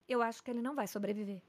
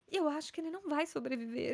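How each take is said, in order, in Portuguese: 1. A voz soa séria e calma, sem emoção. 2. A voz soa emocionada e perto de chorar. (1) "você tem que ter um tom, mas você não tem que ter emoção" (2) "ela não tá chorando, ela é a médica"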